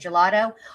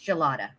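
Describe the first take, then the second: First: The name ends with an 'oh' vowel. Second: The name ends with an 'ah' vowel. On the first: The speaker calls it wrong. "What did I say? Gelato?" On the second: The speaker calls it right. "It's gelata"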